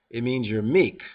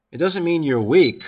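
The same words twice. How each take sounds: First: Meek set down firmly and calmly; settled stress on meek. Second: Weak pushed out louder with a rising tune; scornful stress on weak. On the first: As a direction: land on meek as the true answer. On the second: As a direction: hit weak hard, rising, to reject it. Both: Shown as a demonstration.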